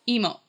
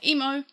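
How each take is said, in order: First: The last syllable sounds like Japanese 'mo'. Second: The word has a broad Australian vowel. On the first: The robot responds to it. "more as in the Japanese character mo" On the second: The robot does not respond to it. "like I'm saying it right now, she's not actually responding"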